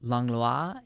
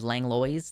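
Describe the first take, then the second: First: It is pronounced the French way. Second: It is pronounced the local way. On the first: "in French" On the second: "instead of Langlois thing that they do"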